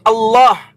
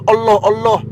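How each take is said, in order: First: Allah said with a heavy, thick lam and open a, tafkhim. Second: Allah said as "oloh" with rounded o vowels, mocking; imitating how mockers twist Allah into "oloh"; mocking Allah pronunciation. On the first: Shown as a demonstration. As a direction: correct Arabic reading of Allah, thick lam. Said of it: "Dibaca tafkhim, lamnya dibaca tebal". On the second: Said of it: "suka ngolok-ngolok".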